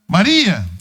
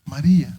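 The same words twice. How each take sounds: First: The name is called out emphatically to get attention. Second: The name is said flatly, without urgency. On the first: The speaker calls it right. "Ele chama a atenção dela" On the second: The speaker calls it wrong. "ele não fala Maria de uma forma Maria"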